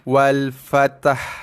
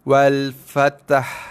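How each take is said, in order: No difference in how they are said.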